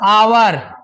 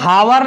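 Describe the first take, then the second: First: The word begins with a vowel sound. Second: The word begins with an h sound. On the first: The speaker calls it right. "एच यहां silent है" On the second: The speaker calls it wrong. "इसको हावर नहीं"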